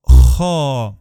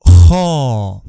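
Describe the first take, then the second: First: Harsh rasping Kha, loud and strong; throat-clearing kha. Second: Harsh rasping kha from the throat, loud; throat-clearing kha. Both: Shown as a demonstration. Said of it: "cleaning his throat".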